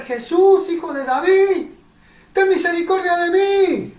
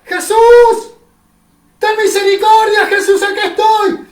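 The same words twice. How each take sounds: First: Higher, loud plea shouted to Jesus; loud, higher desperate cry. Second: Much higher, much louder scream for mercy; much louder, higher desperate cry of a blind man. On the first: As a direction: call out for mercy across a crowd. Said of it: "a gritar". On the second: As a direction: scream with everything you've got. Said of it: "y de vuelta ... gritaba". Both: Acted.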